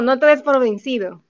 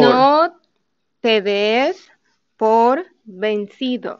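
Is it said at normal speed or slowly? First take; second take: normal; slowly. First: It is said at normal speed. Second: It is said more slowly.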